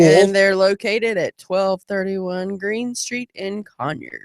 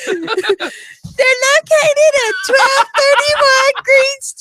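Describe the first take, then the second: First: It is said in her normal voice. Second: It is said in a put-on female voice.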